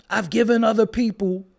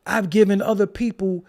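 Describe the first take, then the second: No difference in how they are said.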